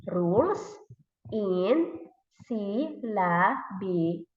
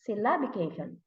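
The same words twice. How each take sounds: First: Slow "syllabication", split sy-lla-bi-ca-tion; syllable by syllable. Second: Said in the usual way. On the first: Shown as a demonstration. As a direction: sound out each syllable of "syllabication" separately. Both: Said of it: "why do we need to syllabize the word".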